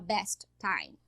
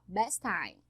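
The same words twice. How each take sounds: First: Both T sounds are pronounced separately. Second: The two T sounds merge into one. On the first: The speaker calls it wrong. "Eu não vou falar best time" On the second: The speaker calls it right. "eu falo a consoante uma vez só"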